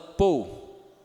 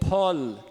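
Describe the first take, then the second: First: Unaspirated p with a closed o-u glide. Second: Aspirated p, open vowel, ending in plain L. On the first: "é o jeito que o brasileiro vai falar geralmente" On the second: "E nem mesmo com L"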